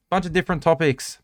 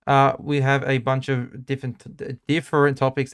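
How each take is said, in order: First: Said in the usual way. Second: Muffled behind a mask; through a face mask. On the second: Real, not acted. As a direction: talk through a Spider-Man mask. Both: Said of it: "It's really hard to speak with this mask on".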